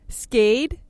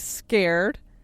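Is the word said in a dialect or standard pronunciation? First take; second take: dialect; standard. First: It is said with the local dialect pronunciation. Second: It is said with standard English pronunciation.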